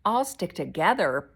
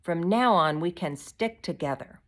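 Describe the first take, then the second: First: Loud, indignant echo; incredulous, forceful retort; angry. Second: Earnest, stressed declaration; mildly defiant, emphatic "now on"; brave. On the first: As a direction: throw it back as an angry question. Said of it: "Pod repeated angrily". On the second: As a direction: make the case firmly. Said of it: "she went on bravely". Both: A narrator's reading.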